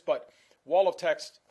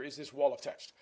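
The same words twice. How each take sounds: First: "wall of text" slow and much louder, every word leaned on; stress on wall of text. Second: Said in the usual way. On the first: Shown as a demonstration. Lecturer to students, hammering "wall of text" slow and loud. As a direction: slam down "wall of text" as a warning.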